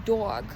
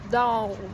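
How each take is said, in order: First: It is said in a northern city accent. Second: It is said in a thick southern accent. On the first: "I grew up in the city, so I say dog" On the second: "he has a really thick southern accent, so he says dog"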